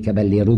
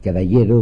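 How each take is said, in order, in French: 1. Le nom est prononcé à la française. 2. Le nom est prononcé à l'espagnole.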